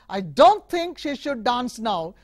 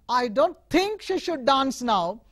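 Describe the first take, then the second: First: The stress falls on the word don't. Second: The stress falls on the word think. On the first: It is not true that the speaker thinks this. "If you emphasize the second word" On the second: The speaker meant something other than thinking it. "read the third one"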